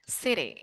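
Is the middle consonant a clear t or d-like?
d-like. The middle t sounds like a soft d. "it becomes something like D"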